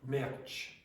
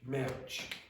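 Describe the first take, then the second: No difference in how they are said.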